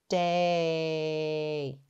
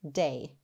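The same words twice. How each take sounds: First: The word is drawn out slowly, sounds stretched. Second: The word is said quickly as one unit. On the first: "Let's tap and stretch them together" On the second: "Say it fast"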